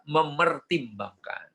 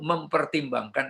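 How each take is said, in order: First: No p sound follows the first 'me'. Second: A p sound follows the first 'mem'. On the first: The speaker calls it right. "Yang betul adalah memertimbangkan" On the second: The speaker calls it wrong. "mempertimbangkan itu uh, keliru"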